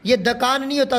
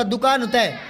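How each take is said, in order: First: दुकान said "dakaan", first vowel lost; mispronounced दुकान. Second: दुकान with a short u, "dukaan"; correct दुकान. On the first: Teacher showing pupils the error, दुकान said "dakaan". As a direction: turn दुकान into "da-kaan". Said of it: "ये दुकान नहीं होता". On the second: Teacher correcting pupils, दुकान said "dukaan". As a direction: say दुकान as "du-kaan", falling. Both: Shown as a demonstration.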